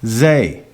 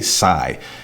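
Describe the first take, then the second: First: The name begins with a z sound. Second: The name begins with an s sound. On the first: The speaker calls it right. "shouldn't there be a Z there?" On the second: The speaker calls it wrong. "They probably say Sai. It's not Sai"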